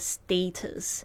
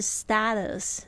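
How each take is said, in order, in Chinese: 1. 第一个元音不是 cat 里的 'a'。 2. 第一个元音是 cat 里的 'a'。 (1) "那个status 是那个英式的发音哦" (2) "美式发音是status，是这个A 是发那个蝴蝶音啊"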